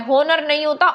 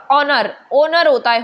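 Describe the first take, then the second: First: The wrong H-sound version of होनर; होनर with a spoken H; wrong pronunciation. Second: ओनर with a silent H. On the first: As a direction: say होनर with a clear H at the start. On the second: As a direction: say ओनर starting on the vowel O, no H sound. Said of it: "एच silent रहता है". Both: Shown as a demonstration.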